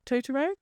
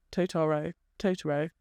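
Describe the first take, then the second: First: "Totoro?" pitched up with a questioning rise; unsure pronunciation. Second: "Totoro" lower, as a statement; practising the name. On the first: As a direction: try out "Totoro?" as a question, higher. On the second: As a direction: repeat "Totoro" in a lower pitch, settling on it. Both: Shown as a demonstration. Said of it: "You're gonna mock me".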